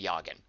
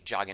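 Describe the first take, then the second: First: The name begins like the word Jaeger. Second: The name begins like the word jog. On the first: "like Jaeger" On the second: "it sounds like she's running"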